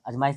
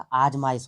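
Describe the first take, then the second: First: अजमाइश opening on a short "a"; wrong short vowel. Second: आजमाइश opening on a long, louder "aa"; correct long vowel. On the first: Teacher rejecting a misspelling, short-vowel wrong form. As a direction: start अजमाइश with a brief "uh" vowel. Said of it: "नहीं होता". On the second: Teacher correcting the spelling, long-vowel right form. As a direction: stretch the first vowel of आजमाइश. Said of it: "होता है". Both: Shown as a demonstration.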